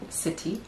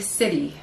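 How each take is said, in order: First: The middle consonant is a clear T sound. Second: The middle consonant is a soft D-like sound. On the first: "instead of city" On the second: "it would be city"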